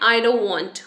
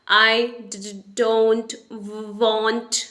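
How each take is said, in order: First: The phrase is said smoothly without repeated sounds. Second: Some sounds are repeated two or three times. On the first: "जैसे हम normally बोलते हैं" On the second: "कुछ letters ऐसे होंगे जिनको वो दो से तीन बार बोलेगा"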